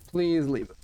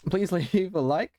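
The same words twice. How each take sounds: First: Said in the usual way. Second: Breaking into a laugh mid-ask; laughing through it. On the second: Real, not acted. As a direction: laugh as you say Please. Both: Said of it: "losing my voice".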